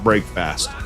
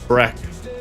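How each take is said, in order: First: Both parts are said fully, like 'break fast'. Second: The second syllable is reduced, like 'fist'. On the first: The speaker calls it wrong. "Not break fast" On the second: The speaker calls it right. "We say it without the A"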